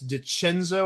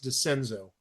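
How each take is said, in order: First: The C has a hard Italian sound. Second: The C has a soft sound. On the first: The speaker calls it wrong. "I don't think it's DiCenzo" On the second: The speaker calls it right. "They don't put the hard C sound uh, like the Italian C on there"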